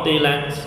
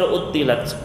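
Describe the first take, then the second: First: The t sound is short and single. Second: The t sound is held long and doubled.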